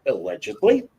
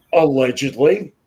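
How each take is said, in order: First: Allegedly sung out higher with a coy rising tune; mock innocent hedge. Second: Allegedly dropped in dry as a mock legal hedge; deadpan disclaimer after an insult; ironic hedge. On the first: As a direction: tack on allegedly in playful fake innocence. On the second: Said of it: "This bitch". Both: Shown as a demonstration.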